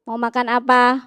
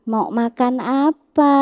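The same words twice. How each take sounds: First: The question is said short and clipped. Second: The question is said long and drawn out. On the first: The speaker calls it wrong. "bukan syidah" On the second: The speaker calls it right. "Seperti panjangnya mad arid lisukun"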